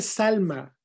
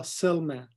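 First: Said in the usual way. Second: "Selma" with dark American vowel and l; anglicized pronunciation. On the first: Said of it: "Se dice Salma". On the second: Shown as a demonstration. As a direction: say "Selma" as an English name. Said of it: "no Selma".

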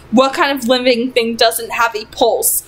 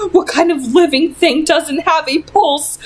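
First: Said in the usual way. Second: Horrified question. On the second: Acted. Mother's terrified outburst.

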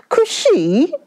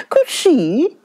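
First: High, breathy whispered shriek of disbelief. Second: High, scornful echo of Cushy; indignant repeat. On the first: Wife shrieks back at her husband's demand, high and breathy. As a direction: squeak the word Cushy out high in shock. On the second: Wife scornfully repeats the husband's request, high. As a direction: throw Cushy back at him, higher. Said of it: "shrieked the wife". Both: A narrator's reading.

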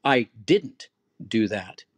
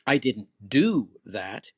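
First: Slow, loud I didn't do that with I leaned on; stress on I. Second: Slow and loud, do punched; stress on do. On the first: Teacher demonstrates a firm stress on I, slow and loud. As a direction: lean on I slowly and firmly. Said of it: "then I'm stressing the I". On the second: Teacher demonstrates stress on do, slow and loud. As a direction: hit the word do hard and slow. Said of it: "the stressor is on the word do". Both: Shown as a demonstration.

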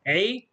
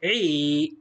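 First: عي as a brief 'i'; one quick beat on عي; short vowel. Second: عي with a long, held 'ee'; long vowel. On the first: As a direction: say عي short, without holding it. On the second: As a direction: draw out the vowel of عي. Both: Shown as a demonstration. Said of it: "صوت طويل".

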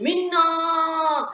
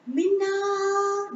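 First: A clear high call from close by; father calling his lost daughter. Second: Faint far-off call. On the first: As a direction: call her name so she can hear it. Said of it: "clearly she could hear her name being called". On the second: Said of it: "really hear someone call out her name". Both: Acted.

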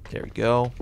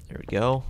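Both takes have the same delivery.

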